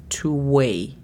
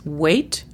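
First: "to weigh" slow, open ending with no T; weigh without T. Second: "weight" slow, ending on a T. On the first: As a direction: drop the final T in "to weigh". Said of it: "sin la T". ("to weigh" lento, sin la T) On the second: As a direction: say "weight" slowly and close it with the T. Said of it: "a weight se le quita la T". ("weight" lento, con la T final) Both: Shown as a demonstration.

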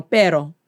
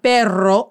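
First: Pero with one quick tapped r; pero, short flapped r, no trill; single-r pronunciation. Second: Perro with a rolled, trilled rr; perro, long rolling r; double-r pronunciation. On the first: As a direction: tap the r lightly in pero. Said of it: "This is with only one R". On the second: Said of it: "This is not perro". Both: Shown as a demonstration.

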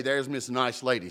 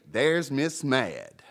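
First: Said in the usual way. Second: Slow, drawn-out mocking nickname; mock sneer. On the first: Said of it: "don't even say". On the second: Shown as a demonstration. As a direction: stretch "Mad" out with scorn.

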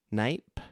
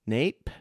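First: Knipe with a long I, rhyming with ripe; tentative pronunciation. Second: Nape with a long A, rhyming with tape; alternative pronunciation. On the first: Host unsure of the bishop's surname, tentative Knipe like "nipe". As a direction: try Knipe as "nipe", questioning. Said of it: "I don't know how to pronounce that". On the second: Host trying another reading of the surname, tentative Nape like "tape". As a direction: try Nape with an "ay" vowel, questioning. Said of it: "Maybe it's Nape". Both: Shown as a demonstration.

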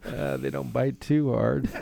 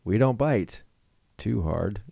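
First: Slow, laughing through the words; can't hold back the giggles. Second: Teasing commercial voice, a little higher; ad read. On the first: Real, not acted. Repeats ad line laughing. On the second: Acted. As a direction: sell the line like a cheesy ad. Ad read punchline.

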